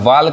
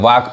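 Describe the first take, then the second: First: An L sound is heard before the K. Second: No L sound is heard before the K. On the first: The speaker calls it wrong. "वाल्क नहीं कहेंगे" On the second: The speaker calls it right. "यहाँ एल क्या है silent है"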